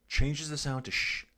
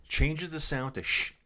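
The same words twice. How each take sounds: The two takes are said the same way.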